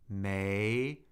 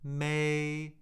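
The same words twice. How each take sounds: First: The pitch rises from middle to high. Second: The pitch stays high and level. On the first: "second tone" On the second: "the first tone"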